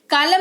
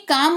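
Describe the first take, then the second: First: कालम with the L sounded; wrong pronunciation. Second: काम with a silent L; correct pronunciation. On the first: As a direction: say कालम in two syllables, L pronounced. (गलत उच्चारण, कालम में ल बोलकर) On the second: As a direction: say काम as one syllable, no L. (सही उच्चारण, काम में ल मौन) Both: Shown as a demonstration. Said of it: "कालम नहीं काम हो जाएगा".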